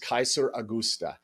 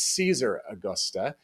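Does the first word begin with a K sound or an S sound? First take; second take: K sound; S sound. First: The first word begins with a hard K sound. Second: The first word begins with a soft S sound. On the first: This is the original Latin pronunciation. "in Latin, of course, it would be pronounced" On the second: This is the later pronunciation used in Spain. "they started pronouncing that that C as more of a soft C"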